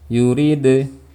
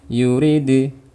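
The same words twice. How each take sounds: The two takes are said the same way.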